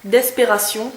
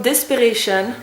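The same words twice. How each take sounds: First: D'espération said the French way, ending -syon; Frenchify d'espération, dess-pay-rah-SYON; French accent. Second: Desperation said the English way, ending -shun; English pronunciation of Desperation, des-per-AY-shun; English shade name. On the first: Vlogger repeating the shade name to viewers in a French accent. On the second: Beauty vlogger reading the shade name, English pronunciation. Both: Shown as a demonstration. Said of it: "avec l'accent français".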